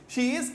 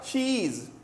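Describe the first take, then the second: First: Both words are said separately and fully. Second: The two words merge into one syllable.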